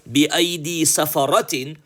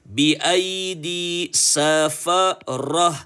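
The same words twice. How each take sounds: First: The last word ends with a t sound. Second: The last word ends with a silent h. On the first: The speaker calls it wrong. "we're not going to say" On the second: The speaker calls it right. "This round ta, it is changed into a ha with a sukun"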